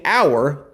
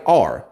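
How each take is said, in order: First: The word rhymes with 'hour'. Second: The word sounds like the letter R.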